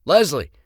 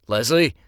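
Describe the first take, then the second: First: High, loud urgent shout; louder shout. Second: Loud call for attention. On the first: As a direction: yell her name to snap her out. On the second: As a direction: call her name across the room. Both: Acted. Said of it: "then louder when she didn't respond".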